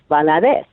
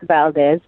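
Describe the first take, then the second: First: The name is said with three syllables. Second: The name is said with two syllables. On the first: The speaker calls it right. "it's Valadez" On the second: The speaker calls it wrong. "It's not Valdez"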